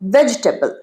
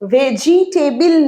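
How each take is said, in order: First: The word is said with three syllables, vej-tabl. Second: The word is said with four full syllables. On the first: The speaker calls it right. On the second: The speaker calls it wrong. "ভেজিটেবল নয়"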